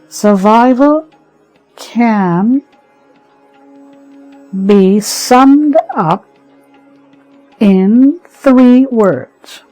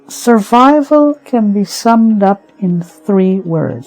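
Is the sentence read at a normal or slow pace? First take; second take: slow; normal. First: The sentence is read slowly and deliberately. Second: The sentence is read at a normal pace.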